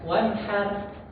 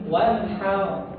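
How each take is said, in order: First: The final sound is light and released outward. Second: The final sound is heavy and held in the mouth. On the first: The speaker calls it wrong. "nggak one har, one har lepas" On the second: The speaker calls it right. "Tapi ini one how"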